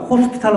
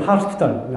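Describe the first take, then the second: First: The first vowel is a rounded o sound. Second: The first vowel is an open ah sound. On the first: The speaker calls it right. "호스피탈 하면 될 걸" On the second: The speaker calls it wrong. "완전히 미국식 발음이거든요"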